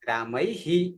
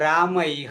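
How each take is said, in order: First: The final h is followed by an i vowel. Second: The final h has no vowel after it. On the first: The speaker calls it right. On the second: The speaker calls it wrong.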